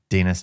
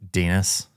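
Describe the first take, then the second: First: The name is said in its ordinary way. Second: The name is said in the film character's style.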